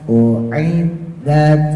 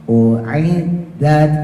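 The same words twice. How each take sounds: No difference in how they are said.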